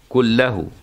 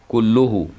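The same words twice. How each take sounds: First: The word is said with an 'a' ending, kullahu. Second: The word is said with a 'u' ending, kulluhu. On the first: The word is an emphasizer of the preceding noun. "بالنصب تأكيد" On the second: The word is the subject of a new clause. "بالرفع مبتدأ"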